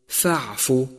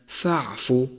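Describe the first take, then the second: No difference in how they are said.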